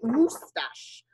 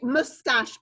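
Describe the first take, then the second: First: The word is said with a French pronunciation. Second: The word is said with an English pronunciation. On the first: This is how French speakers say it. "the French say moustache" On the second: This is how English speakers say it. "We say moustache"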